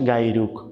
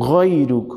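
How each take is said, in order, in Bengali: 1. প্রথম ধ্বনিটি হলো সাধারণ g। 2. প্রথম ধ্বনিটি হলো গলার গভীর ghain। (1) "গায়রুক ভুল" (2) "গয়রুক সঠিক"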